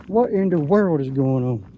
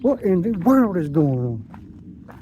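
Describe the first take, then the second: First: Said in the usual way. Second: Slow, stretched-out wonder; slow amazed drawl. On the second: Real, not acted. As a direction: savor each word in disbelief. Amazed at the day.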